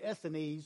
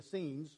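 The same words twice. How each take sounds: First: The word ends sounding like 'Pharisee' and 'Sadducee'. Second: The word's ending does not sound like 'Pharisee'. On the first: "I always say Essenes because it sounds like Pharisee and Sadducee" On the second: "I think it's really the Essenes"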